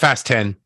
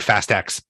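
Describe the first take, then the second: First: The last word is said as the number ten. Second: The last word is said as the letter X. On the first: The speaker calls it right. "It's Fast ten" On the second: The speaker calls it wrong. "Kevin Patrick would not stop saying Fast X"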